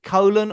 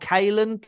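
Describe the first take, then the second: First: The first syllable sounds like 'coll'. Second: The first syllable sounds like 'kale'. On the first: The speaker calls it wrong. "Is it colon" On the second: The speaker calls it right. "or Kalen?"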